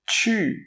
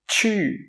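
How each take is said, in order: No difference in how they are said.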